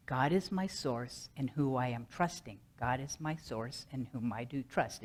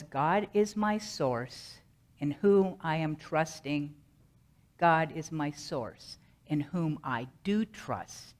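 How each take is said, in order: First: Softer repeated recitation; calming mantra. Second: Slow, deliberate affirmation; mantra recitation. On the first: Shown as a demonstration. Speaker repeating the mantra to calm down, softer rhythmic recitation. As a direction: repeat it low-key, running the phrases along. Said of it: "over and over and over again until I calm down". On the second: Acted. Speaker presenting the mantra given by Spirit, slow deliberate recitation. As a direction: recite it slowly, word by measured word. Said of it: "The mantra was".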